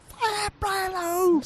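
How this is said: It is said like a high Supercross announcer.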